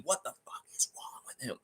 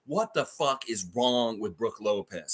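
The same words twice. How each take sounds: First: A hushed, breathless whisper, much softer. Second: Said in the usual way. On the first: Real, not acted. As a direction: drop it to a disbelieving whisper. Repeated rant, loud then whispered.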